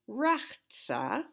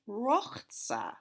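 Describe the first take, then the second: First: The first vowel sounds like 'ah'. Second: The first vowel sounds like 'oh'. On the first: This ignores the grammar of the vowel sign. "I grew up saying Rachza, but I didn't know about the Kamatz Katan then" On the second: This follows the grammar of the vowel sign. "if there's a Kamatz there, it would be, because of the grammar involved, Rochza"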